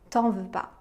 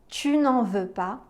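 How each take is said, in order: First: The 'ne' sound is dropped entirely. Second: The 'ne' sound is pronounced in full. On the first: This is the casual, spoken-style negation. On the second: This is the formal, written-style negation.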